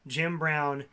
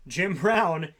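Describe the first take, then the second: First: Said in the usual way. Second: JIM BROWN punched louder, with lifted pitch; "Jim Brown" said with swooping, louder emphasis; emphatic repeat. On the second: Real, not acted. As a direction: hit "Jim Brown" harder to drive the name home.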